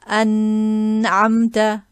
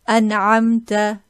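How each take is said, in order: First: The n sound is drawn out long. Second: The n sound is kept short. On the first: The speaker calls it wrong. "not to extend and say" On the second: The speaker calls it right. "No prolonging"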